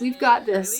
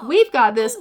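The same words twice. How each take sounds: First: Said in the usual way. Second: "We've" pushed up in disbelief, questioning echo; incredulous stress on WE'VE. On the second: Acted. Mother in labor echoes her partner, stressing "We've" incredulously. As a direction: throw "We've" back as a challenge. Mother throws his words back.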